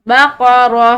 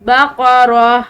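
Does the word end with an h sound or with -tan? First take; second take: h sound; h sound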